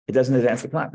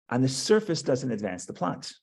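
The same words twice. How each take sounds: First: Doesn't punched and louder; stress on doesn't. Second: Said in the usual way. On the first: Shown as a demonstration. Teacher insisting to his class, doesn't punched. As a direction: lean hard on doesn't, a bit louder. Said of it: "Not only doesn't advance the plot".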